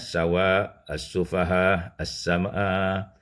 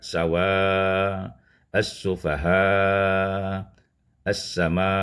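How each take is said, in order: First: The long vowel is held only briefly. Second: The long vowel is held a medium length. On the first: "dibacakan dengan qasar" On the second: "empat harakat"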